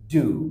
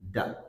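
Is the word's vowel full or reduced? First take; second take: full; reduced. First: The word is said with its full strong vowel. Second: The word is said with a weak reduced vowel. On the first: "এটাকে আমরা strong সাউন্ডটা বলছি ডু" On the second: "but উইক sound আসলে ডা"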